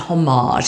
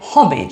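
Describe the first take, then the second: First: It is said with a French-style pronunciation. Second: It is said English-style, rhyming with porridge. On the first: The speaker calls it wrong. "in a kind of faux French manner" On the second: The speaker calls it right. "rhyming almost with porridge"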